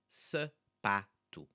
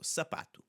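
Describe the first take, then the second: First: Sapato slowly split as sa, PA, to; sapato, reduced "suh", separate open PA, then to; syllable by syllable. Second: Said in the usual way. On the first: Shown as a demonstration. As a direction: break sapato into three with pauses. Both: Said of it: "The first A is the one we're focusing on".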